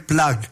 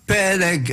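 First: The word is said as one short syllable. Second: The word is said as two syllables. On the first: The speaker calls it wrong. "לא אומרים פלאג" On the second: The speaker calls it right. "פלג, אלוהים, מלא מים"

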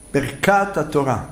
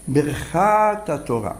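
First: The middle consonant is a hard k sound. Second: The middle consonant is a soft kh sound. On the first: The speaker calls it wrong. "זה נגד הדקדוק" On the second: The speaker calls it right. "תמיד חף באמצע התיבה היא רפויה"

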